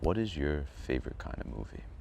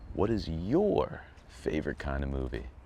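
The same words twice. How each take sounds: First: It is said flatly, without much passion. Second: It is said in a cheerful, happy tone.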